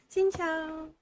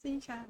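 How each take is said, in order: First: "Xin chào" said higher, stress on "xin"; "Xin chào" bright and high; Vietnamese hello. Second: "Xin chào" softer, falling at the end; Vietnamese hello. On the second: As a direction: repeat "Xin chào" quietly with a fall. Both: Shown as a demonstration. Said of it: "teaching hello".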